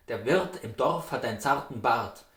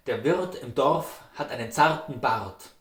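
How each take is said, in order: Both takes have the same delivery.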